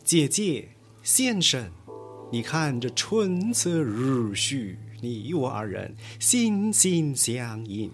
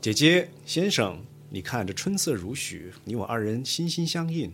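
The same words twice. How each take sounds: First: It is spoken in stylized Kunqu stage recitation. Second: It is spoken in plain standard Mandarin.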